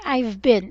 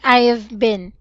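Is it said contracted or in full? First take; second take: contracted; full. First: It is contracted to two syllables. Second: Each word is said fully and clearly. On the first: The speaker calls it wrong. "I am hearing you saying I've been" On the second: The speaker calls it right. "It should be I have been. You have to be clear"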